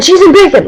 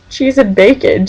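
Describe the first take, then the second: First: High, sudden, hammed-up blurt; imitated random exclamation. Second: Said in the usual way. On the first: Someone randomly announces food, high mock blurt. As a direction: blurt it out much higher. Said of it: "like that". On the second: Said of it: "just randomly".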